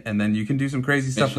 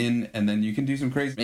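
First: Said in the usual way. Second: Chopped-up granular resampled voice; grainy dissolving voice. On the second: Shown as a demonstration. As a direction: voice sampled and granulated, breaking apart. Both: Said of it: "So somehow that's me talking".

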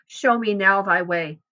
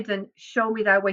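First: "now" leaned on as a demand; stress on NOW. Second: Said in the usual way. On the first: Shown as a demonstration. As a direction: press firmly on "now". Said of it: "He says, "Show me now". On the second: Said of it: "He doesn't say".

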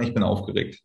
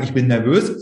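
First: Ich bin aufgeregt said lower and quieter, calm; said softer as the better choice. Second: Said in the usual way. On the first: Shown as a demonstration. Coach models the good phrase for students, calmly. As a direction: settle the voice on aufgeregt. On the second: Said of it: "nicht sagen".

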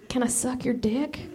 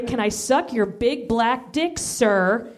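First: Softly, hesitantly asking; shy quiet request. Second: Slow, deliberate, 'Can I suck your big black dick, sir?' rising on 'dick'; demanded phrasing. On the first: Acted. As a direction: ask it timidly. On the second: Shown as a demonstration. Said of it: "I want you to say".

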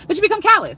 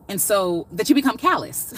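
First: High, loud nervous laugh-through; nervous, flustered retake; flustered restart. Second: Said in the usual way. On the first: Real, not acted. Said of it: "I'm a little nervous". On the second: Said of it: "That's what I'm trying to say".

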